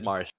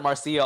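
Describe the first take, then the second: First: The name is said as Marsha. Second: The name is said as Marcia. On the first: This matches the Japanese pronunciation. The speaker calls it right. "but it is Marsha" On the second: This is the speaker's habitual pronunciation. The speaker calls it wrong. "I know I pronounce it Marcia all the time"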